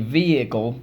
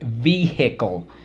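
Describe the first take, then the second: First: The H is silent, as in everyday speech. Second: The H is sounded out, following the spelling. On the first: This is how the word is normally spoken. "We say vehicle" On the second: This is a spelling pronunciation to help remember the letters. "but we spell it vehicle"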